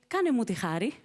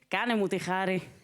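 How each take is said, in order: First: It sounds like a plain, polite request. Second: It sounds annoyed and dismissive, bored.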